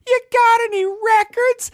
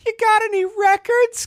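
First: Put-on high, slow little kid asking. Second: Put-on high squeaky little kid asking. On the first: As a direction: stretch it out like an eager young kid, way up high. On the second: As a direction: talk like an eager young kid, way up high. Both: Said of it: "'Cause that's how I talked when I was a kid".

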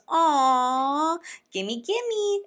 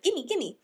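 First: Put-on high, loud squealing gimme like a little kid; mocking a grown woman acting like a toddler; toddler grabbing. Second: Put-on milder toddler. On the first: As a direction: mimic a greedy toddler reaching for candy. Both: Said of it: "like a toddler".

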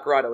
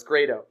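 First: Grado with a broad AH, "GRAH-doh"; mispronounced Grado. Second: Grado with a long A, "GRAY-doh"; corrected Grado. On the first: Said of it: "he told me it's pronounced not Grado". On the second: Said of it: "he told me it's pronounced". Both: Shown as a demonstration.

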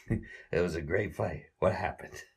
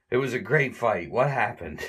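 First: Said in the usual way. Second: Higher, dazed mock stagger; dazed Larry. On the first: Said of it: "Larry has a great line". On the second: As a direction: sound punch-drunk and lost. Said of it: "And he says".

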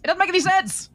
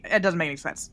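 First: Higher, louder frustrated repeat; exasperated emphasis. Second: Said in the usual way. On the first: Real, not acted. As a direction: push it up in exasperation. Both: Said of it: "repeats line louder".

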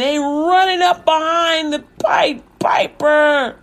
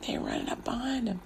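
First: High, drawn-out storyteller build; excited climax. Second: Very soft, near-whispered aside; hushed repeat. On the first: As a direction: stretch it out as the rats swarm. Climax of the rat chase. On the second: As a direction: drop right down to a hush. Hushed repeat after the climax. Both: A narrator's reading.

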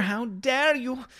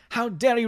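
First: High, slow, hammed-up offense; mock outrage. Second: High, quick mock offense; mock outrage. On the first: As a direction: drag out the fake indignation. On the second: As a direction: snap it back faster. Repeat, quicker.

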